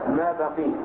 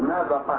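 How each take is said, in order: First: The last word ends in a long 'ee' sound. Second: The last word ends in a long 'ah' sound. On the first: The form is shortened to fit the poem's meter. "وسكون الياء من بقي للضرورة" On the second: This variant is also allowed to fit the meter. "أو تفتح القاف"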